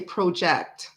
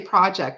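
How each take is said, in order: First: It is pronounced in a Canadian way. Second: It is pronounced in an American way. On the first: "In Canada, they say project" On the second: "They don't say project"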